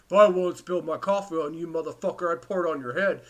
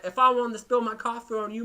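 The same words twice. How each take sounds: First: A louder, put-on voice of the rude lady threatening; angry bus lady's voice. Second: A rough first go at the angry bus lady, already loud; first take at her. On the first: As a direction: threaten like the big lady on the bus, in a full mock voice. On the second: Retold or imitated. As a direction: quote the lady loudly, not yet fully in character. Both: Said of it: "I'll do it in her voice".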